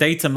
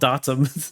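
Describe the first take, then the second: First: The first vowel is a long A sound. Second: The first vowel is a short A sound. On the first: The speaker calls it right. "The long A" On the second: The speaker calls it wrong. "that was a short A"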